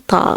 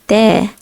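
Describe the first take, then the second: First: The consonant is heavy, with a deep emphatic sound. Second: The consonant is light, with a plain thin sound. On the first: The speaker calls it wrong. "We don't say ta" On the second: The speaker calls it right. "It's a light letter. ... we say ta"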